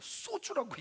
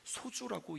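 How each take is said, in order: First: The first consonant is tense and hard. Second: The first consonant is plain and soft. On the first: "세게 발음한 거예요" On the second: "소주라고 이야기하지 않고"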